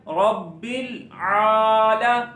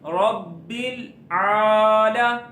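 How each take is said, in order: Both takes have the same delivery.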